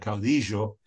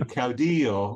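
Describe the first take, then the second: First: It has an Argentine Spanish pronunciation. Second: It has a general, non-regional Spanish pronunciation.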